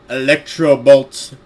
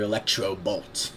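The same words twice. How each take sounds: First: Loud, slow mock battle cry; drawn-out, over-dramatic shout; hammed-up attack call. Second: Said in the usual way. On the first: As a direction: boom it out like a cartoon move. Mocks the attack name after laughing.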